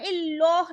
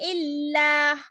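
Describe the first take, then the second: First: The L is thick, with rounded lips. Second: The L is thin and light. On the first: The speaker calls it wrong. "इसको हम इल्लाह नहीं पढ़ेंगे, हम मुंह को गोलाई नहीं करेंगे" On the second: The speaker calls it right. "जेर के साथ अल्लाह का नाम पतला रखेंगे"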